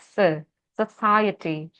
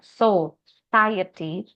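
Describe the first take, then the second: First: The first syllable has a short 'se' vowel. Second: The first syllable has a full 'o' vowel. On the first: The speaker calls it right. "pakai se" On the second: The speaker calls it wrong. "bukan so"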